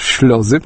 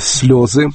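First: The word begins with an sh sound. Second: The word begins with a plain s sound. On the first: The speaker calls it wrong. "говорят на немецкий манер «шлезы»" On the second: The speaker calls it right. "не могут, оказывается, произнести слово «слезы»"

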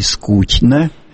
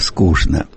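First: It is pronounced the St Petersburg way. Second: It is pronounced the Moscow way. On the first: "Говорят в Петербурге не только «что», но и «конечно», но и" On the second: "А москвичи говорят"

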